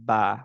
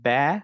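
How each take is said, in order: First: The vowel after b is an open a. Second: The vowel after b is a fronted ae. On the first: The speaker calls it right. "আমরা বলব হচ্ছে বা।" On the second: The speaker calls it wrong. "এগুলো বলব না।"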